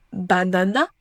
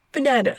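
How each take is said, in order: First: "banana" with three full a vowels; French-style mistake. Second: "banana" stressed in the middle, weak outer vowels; English schwa. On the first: Teacher shows what not to say, French-style vowels. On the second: Teacher corrects the mistake, English schwa. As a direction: reduce first and last a of "banana" to schwa. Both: Shown as a demonstration. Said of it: "On ne dit pas banana".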